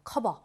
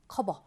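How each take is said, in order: First: The middle consonant sounds like an unvoiced b. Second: The middle consonant sounds like an unvoiced b.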